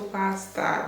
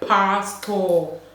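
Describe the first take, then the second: First: It is said in a Ghanaian accent, mouth less open. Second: It is said in a Nigerian accent, mouth wide open. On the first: "theirs is like there's this whole pastor" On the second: "we pronounce things with our mouth open a lot"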